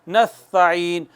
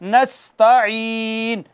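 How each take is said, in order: First: The s is soft with no whistling hiss. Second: The s is forceful with a whistling hiss. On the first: The speaker calls it wrong. "यूं नहीं कहना" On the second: The speaker calls it right. "सीटी के साथ पढ़ना है, जोर लगा के पढ़ना है"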